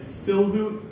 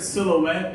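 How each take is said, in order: First: The word ends with an 'oot' sound. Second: The word ends with an 'ette' sound. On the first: The speaker calls it wrong. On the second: The speaker calls it right.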